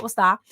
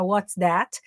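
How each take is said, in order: First: "What's that?" with the final T of "that" swallowed into a glottal stop; glotted T. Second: "What's that?" with the T of "that" clearly released; full T. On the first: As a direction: cut off the T at the end of "that" with a catch in the throat. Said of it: "Muita gente fala". ("What's that?" com T glotal, sem soltar o T final de "that") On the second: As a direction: pronounce the final T of "that" crisply and fully. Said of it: "E aí não fala". ("What's that?" com o T final de "that" bem pronunciado) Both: Shown as a demonstration.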